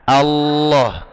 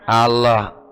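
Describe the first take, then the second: First: The L is pressed, held, then released. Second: The L is said lightly without firm pressure. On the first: The speaker calls it right. "Allah ditekan, ditahan, baru dilepas. Allah begitu" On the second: The speaker calls it wrong. "itu kurang tekanan sebenarnya"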